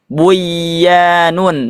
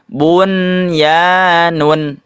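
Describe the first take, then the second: First: The n is merged into the following y. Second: The n is pronounced clearly before the y. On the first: The speaker calls it wrong. "tidak dibaca buyanun" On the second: The speaker calls it right. "tapi dibacanya bunyanun"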